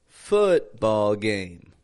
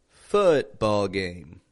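Both takes have the same delivery.

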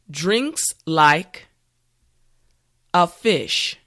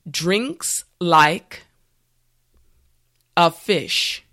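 No difference in how they are said.

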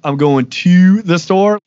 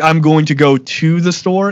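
First: It is said in a Black Baltimore accent, with lengthened sounds. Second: It is said in a plain, neutral accent. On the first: "you emphasize certain letters longer than they need to be" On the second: "instead of saying it like that"

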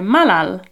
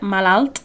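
First: The word ends without any T sound. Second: The word ends with an audible T sound. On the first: The speaker calls it right. "But we don't say the T. So, malal" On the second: The speaker calls it wrong. "it's spelled with a T on the end of it, malalt, but we don't say that"

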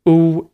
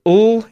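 First: The L sound is dark, with rounded lips. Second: The L sound is light, tongue touching the palate. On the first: "is the dark L" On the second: "is the light L"

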